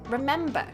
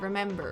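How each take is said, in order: First: The final R sound is dropped. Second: The final R sound is pronounced. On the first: "R's when they're at the end of the word" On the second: "instead of"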